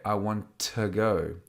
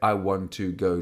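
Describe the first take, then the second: First: The word to is reduced to a schwa. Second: The word to has a full vowel. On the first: The speaker calls it right. "We would say ... to has a weak form" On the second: The speaker calls it wrong. "we wouldn't say"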